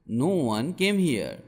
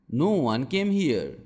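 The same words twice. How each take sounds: The two takes are said the same way.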